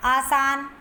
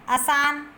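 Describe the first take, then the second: First: आसान with a long first "aa"; आसान pronounced "aa-saan"; correct form. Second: आसान with a short first vowel, "uh-saan"; आसान misspoken as "asaan"; incorrect form. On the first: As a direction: lengthen the opening vowel of आसान. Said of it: "तो शुद्ध रूप होगा". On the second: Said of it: "अशुद्ध शब्द है". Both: Shown as a demonstration.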